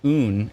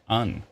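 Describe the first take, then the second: First: The vowel sounds like 'oo'. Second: The vowel sounds like 'uh'. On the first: The speaker calls it wrong. "so it's not un" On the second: The speaker calls it right. "it's un"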